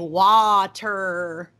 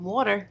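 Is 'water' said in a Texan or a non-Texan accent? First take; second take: Texan; non-Texan. First: It is said in Rhett's Texan accent. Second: It is said in her own non-Texan accent.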